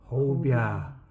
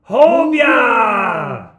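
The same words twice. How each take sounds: First: It is said quietly. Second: It is said loudly.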